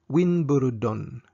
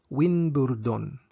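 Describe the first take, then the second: The two takes are said the same way.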